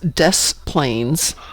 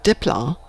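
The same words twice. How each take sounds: First: It is said the local, literal way. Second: It is said the non-local, foreign way. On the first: The speaker calls it right. "We say it the way it's spelled" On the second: The speaker calls it wrong. "not Des Plaines"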